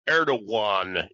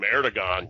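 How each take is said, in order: First: The middle consonant sounds almost like a w. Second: The middle consonant is a hard g. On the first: This is how the name is said in its own language. "the way the Turks pronounce that G in there, it's almost has a W sound" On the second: This is an anglicized form of the name. "it's the anglicization of it"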